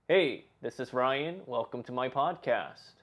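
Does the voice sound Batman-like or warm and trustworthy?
trustworthy. It is said in a warm, trustworthy voice.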